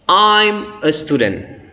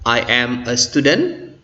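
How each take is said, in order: First: I and am are merged into one shortened word. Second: I and am are said as separate words.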